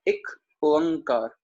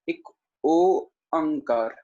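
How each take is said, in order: First: The word is said smoothly as one unit. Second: The word is split into separate parts.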